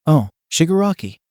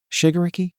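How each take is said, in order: First: Shigaraki said higher, falling at the end in recognition; Shigaraki, a realization with a settled fall; sudden recall. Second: Shigaraki said higher, as a question; Shigaraki, tested with a questioning lift; tentative guess. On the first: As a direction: land on "Shigaraki" as the name clicks. Recalls the right name. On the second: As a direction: try out "Shigaraki" as an uncertain guess. Trying out a half-remembered name. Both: Acted.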